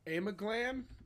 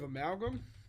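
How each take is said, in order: First: The g sound comes before the l sound. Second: The l sound comes before the g sound. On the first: The speaker calls it wrong. "he was pronouncing it uh, Amaglam" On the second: The speaker calls it right. "instead of amalgam"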